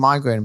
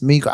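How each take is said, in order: First: The first syllable has an 'eye' vowel. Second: The first syllable has an 'ee' vowel. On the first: This is the commonly used pronunciation. The speaker calls it wrong. "everyone's got used to saying migraine" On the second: This is the British English pronunciation. The speaker calls it right. "but it's migraine"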